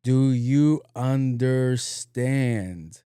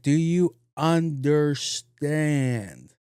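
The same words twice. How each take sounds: First: Stretched-out mock question; slow mocking echo. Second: A stern slow-motion check; slow deliberate question. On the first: Speaker mocking the security guard, slowly echoing him. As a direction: throw his slow words right back at him. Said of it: "and I went". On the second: Retold or imitated. Security guard to speaker, slow and deliberate. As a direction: drag each word out slowly at the guard. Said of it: "He was like".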